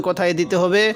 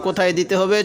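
The two takes are said the same way.

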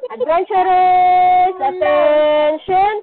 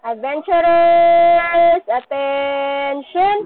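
First: Slow, loud drawn-out call to attention. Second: Slow, drawn-out loud call. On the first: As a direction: call the class to order. Teacher calling class to attention. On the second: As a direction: call them to order again. Repeat call to attention. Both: Real, not acted.

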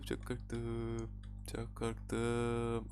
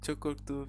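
First: Slow soft repeat. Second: Said in the usual way. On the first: Real, not acted.

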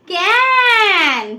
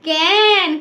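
First: "ক্যান" high and stretched out very slowly; pronunciation demo. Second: "ক্যান" as a shorter, clear falling word; pronunciation demo. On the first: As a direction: model "ক্যান" with one long held vowel. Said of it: "দেখো তাহলে উচ্চারণ করো". ("ক্যান" টেনে লম্বা করে উচ্চারণ) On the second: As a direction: repeat "ক্যান" distinctly, less drawn out. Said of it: "কি বলবো এটাকে". ("ক্যান" ছোট করে স্পষ্ট উচ্চারণ) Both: Shown as a demonstration.

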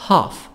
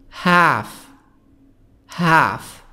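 First: British "Half" with back AH; British accent. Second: American "Half" with the A of cat; long front AE in Half, American style; American accent. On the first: Teacher contrasting accents, British "Half" with broad AH. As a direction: say "hahf" as the British do. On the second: Teacher contrasting accents, American "Half" with front A. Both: Shown as a demonstration. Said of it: "نطق البريطاني".

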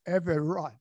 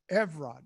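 First: Everard in three syllables, eh-veh-ROD; proper pronunciation. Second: Evrod in two syllables, EV-rod; softened pronunciation. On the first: Man reveals his right name to the room, Everard as eh-veh-ROD. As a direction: sound the middle vowel in "Everard", eh-veh-ROD. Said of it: "my right name is". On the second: Man gives his name for the ladies, Evrod as EV-rod. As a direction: say "Evrod" short, with no middle vowel. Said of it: "I'm going to pronounce my name". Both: Shown as a demonstration.

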